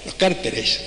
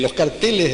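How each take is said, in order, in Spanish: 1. La sílaba tónica es la primera. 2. La sílaba tónica es la segunda.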